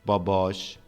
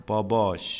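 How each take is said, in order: No difference in how they are said.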